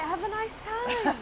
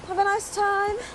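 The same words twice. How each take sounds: First: It is said warmly, with feeling. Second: It is said flatly, without feeling.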